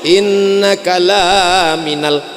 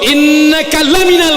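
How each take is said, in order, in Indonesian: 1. Vokal setelah L dibaca panjang. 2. Vokal setelah L itu pendek. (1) "Kalau dibaca panjang" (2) "Lamnya pendek"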